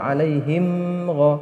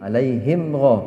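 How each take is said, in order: First: The m sound is held before the next sound. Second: The m sound is clear and short. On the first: The speaker calls it wrong. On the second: The speaker calls it right.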